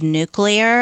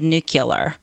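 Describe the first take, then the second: First: It is said in the standard way. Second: It is said in a Southern way.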